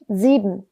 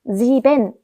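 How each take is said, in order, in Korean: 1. 마지막 n은 흐리고 약하게 발음해요. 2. 마지막 n은 분명하고 강하게 발음해요. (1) "은 이렇게 끝을 흐리면서 발음하는 편입니다" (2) "sieben 해도 알아는 들을 거예요"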